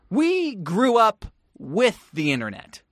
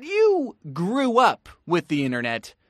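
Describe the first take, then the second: First: Slow, "We" stressed and set apart. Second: YOU set apart from "grew up with the internet"; stress on YOU. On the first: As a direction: lean on "We", pausing before "with the internet". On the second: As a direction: punch "you", then pause before "grew up". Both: Shown as a demonstration. Contrasting two generations' internet childhoods.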